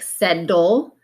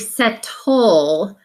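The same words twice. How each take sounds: First: The middle consonant is a quick D-like flap. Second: The middle consonant sounds like a T. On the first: "we kind of flap the T sound and we might say it more like settle" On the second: "but it's really settle"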